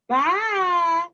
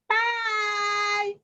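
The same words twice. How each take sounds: First: It is said in a middle-sized voice. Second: It is said in a tiny little voice. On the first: "in her middle sized voice" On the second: "in his tiny little voice"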